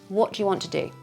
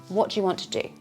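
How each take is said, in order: The two takes are said the same way.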